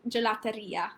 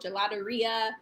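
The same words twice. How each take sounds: First: It is said with an Italian accent. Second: It is said with a plain English accent.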